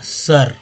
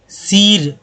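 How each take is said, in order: First: The vowel sounds like a short 'uh'. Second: The vowel sounds like a long 'ee'. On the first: The speaker calls it right. "आपको लगेगा कि सर उच्चारण होता है" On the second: The speaker calls it wrong. "सीर, दम नहीं होगा"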